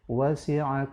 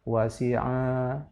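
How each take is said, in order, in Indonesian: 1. Vokal akhirnya dibaca pendek. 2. Vokal akhirnya dibaca panjang. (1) "Yang betul" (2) "tidak panjang pada a, wasi'a, salah"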